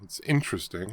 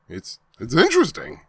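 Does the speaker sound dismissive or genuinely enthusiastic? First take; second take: dismissive; enthusiastic. First: It sounds lukewarm and dismissive. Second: It sounds warm and genuinely enthusiastic. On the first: The book is merely tolerable. The speaker calls it wrong. "Not like, oh, well, it's interesting" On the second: The book is truly good. The speaker calls it right. "it really is interesting. Like, in a good way"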